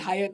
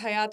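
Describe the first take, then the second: First: The name is said like 'high-at'. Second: The name is said like 'ha-yaat'. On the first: This is the actual pronunciation. The speaker calls it right. "It's actually हायत" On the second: This is how most people say it. The speaker calls it wrong. "सब उसे हयात हयात hotel बुलाते हैं"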